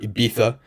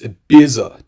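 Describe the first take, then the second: First: The z is said like English th. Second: The z is said like English s. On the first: The speaker calls it wrong. "with that lisp" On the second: The speaker calls it right. "It's Ibiza to me"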